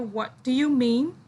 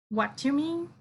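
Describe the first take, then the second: First: "Do you" is said fully as two words. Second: "Do you" is reduced to a quick "d'you". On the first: The speaker calls it wrong. "they don't say what do you mean" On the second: The speaker calls it right. "In speaking, they say what you mean, like that"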